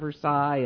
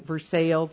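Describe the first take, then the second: First: It has the standard pronunciation. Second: It has the local Illinois pronunciation. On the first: This is the usual name elsewhere. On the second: This is how locals name their town.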